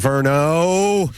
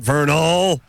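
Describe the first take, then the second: First: The name ends without an L sound. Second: The name ends with an L sound. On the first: The speaker calls it right. "Verno, not Vernal" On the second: The speaker calls it wrong. "not Vernal, with the L at the end"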